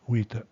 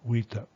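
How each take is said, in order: Both takes have the same delivery.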